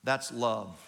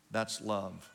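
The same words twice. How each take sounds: First: Said in the usual way. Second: Repeated much softer and lower, almost hushed; soft echo. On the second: Shown as a demonstration. Pastor telling the congregation what love is, hushed. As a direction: let it fall away to a hush. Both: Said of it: "You know what you call that?".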